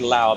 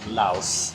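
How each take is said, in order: First: The word ends without an S sound. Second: The word ends with an S sound. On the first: It names the people and the language. The speaker calls it wrong. "You don't say Lao" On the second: It names the country. The speaker calls it right. "it's actually Laos. You pronounce the S"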